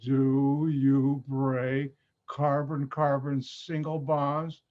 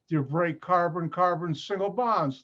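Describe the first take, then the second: First: The question is spoken very slowly. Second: The question is spoken at normal speed.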